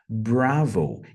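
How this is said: The word has an English pronunciation. The speaker calls it right. "em língua inglesa a pronúncia vai ser bravo"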